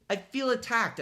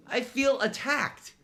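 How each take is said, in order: First: Said in the usual way. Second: Mock wounded. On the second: Mock hurt aside.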